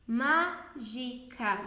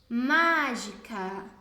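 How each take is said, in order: First: Very slow "Má - gi - ca", each syllable separate. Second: Very slow "mágica" with a long, strong MÁ; stress on MÁ. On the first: Teacher asking which syllable is strongest, "Mágica" split syllable by syllable. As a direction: break "Mágica" into three parts with gaps between. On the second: Teacher helping pupils find the tonic syllable, MÁ stretched in "mágica". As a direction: draw out and lean on the first syllable of "mágica". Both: Shown as a demonstration. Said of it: "Veja qual que é a sílaba mais forte".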